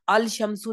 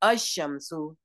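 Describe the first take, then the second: First: The L is pronounced before the sh sound. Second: The L is silent and the sh is doubled. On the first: The speaker calls it wrong. "इसे अल शमसु नहीं पढ़ते" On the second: The speaker calls it right. "हम कहते हैं अशमसु"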